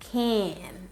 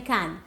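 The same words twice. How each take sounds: First: The vowel is extended and drawn out. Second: The vowel is short and clipped. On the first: The speaker calls it right. "extend that sound" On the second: The speaker calls it wrong. "Don't say can"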